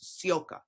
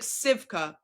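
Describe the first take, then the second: First: The name has no 'v' sound in the middle. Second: The name has a 'v' sound in the middle. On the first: This is how the player's name is actually said. The speaker calls it right. "how you say it is Sioka" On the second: This is how the spelling seems to read. The speaker calls it wrong. "I know it looks like Sivka"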